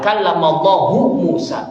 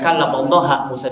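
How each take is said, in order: First: Allah ends with a 'u' vowel. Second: Allah ends with an 'a' vowel. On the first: Allah spoke to Musa. The speaker calls it right. "bacaan yang kita baca adalah" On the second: Musa spoke to Allah. The speaker calls it wrong. "kalau lafzul jalalah dibaca fathah itu nanti sudah beda artinya"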